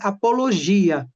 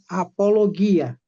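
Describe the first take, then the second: First: The g is soft, like a zh sound. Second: The g is hard, like in go. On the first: This is the Portuguese pronunciation. "nós pronunciamos em português" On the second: This is the Greek pronunciation. "mas em gregos é"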